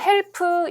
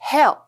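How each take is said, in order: First: Every sound of the word is pronounced fully. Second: The word is reduced and its sounds barely heard. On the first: The speaker calls it wrong. "우리가 help 이렇게 발음을 하지 않기 때문에" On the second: The speaker calls it right. "이게 약간 help, help, help 이 정도밖에 안 들리거든요"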